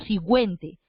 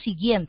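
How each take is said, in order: First: A u sound is pronounced after the g. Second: No u sound is pronounced after the g. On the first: The speaker calls it wrong. "nosotros no pronunciamos la U porque nosotros no decimos siguiente" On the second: The speaker calls it right. "decimos siguiente"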